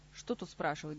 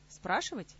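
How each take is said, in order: First: Low, dismissive "Что тут спрашивать"; mildly annoyed. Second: СПРАШИВАТЬ as a mildly curious question. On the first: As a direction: wave the question away with slight irritation, pitched down. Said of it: "досадливо поморщился король". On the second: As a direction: ask "Спрашивать" with light curiosity, pitch jumping up. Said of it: "полюбопытствовал Кантор". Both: A narrator's reading.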